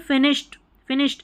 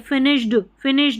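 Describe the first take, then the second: First: The ending is a light t sound. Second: The ending is pressed hard like a d. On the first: The speaker calls it right. "ट का sound आ रहा है, अगर आप सही बोलेंगे" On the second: The speaker calls it wrong. "ये जोर नहीं दे, फिनिश्ड फिनिश्ड बोल देने"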